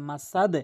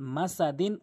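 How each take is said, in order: First: The word ends on a bare d sound. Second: The word ends with an added n sound. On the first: The reader stops on this word. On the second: The reading continues without stopping.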